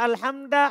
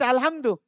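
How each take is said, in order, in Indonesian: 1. Kata ini berakhir dengan vokal a. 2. Kata ini berakhir dengan vokal u. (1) "Enggak boleh antum baca alhamda" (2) "harus dibaca dhamma"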